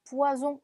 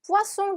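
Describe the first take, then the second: First: Poison with a voiced z, "pwa-zon"; buzzing z sound. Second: Poisson with a clear s, "pwa-son"; sharp s sound. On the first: Teacher warns of the other meaning, poison with a z. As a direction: say poison the French way, z in the middle. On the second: Teacher contrasts fish with poison, poisson with a sharp s. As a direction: say poisson with a hissing double-s. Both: Shown as a demonstration. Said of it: "poisson 대신 poison이라고 하면".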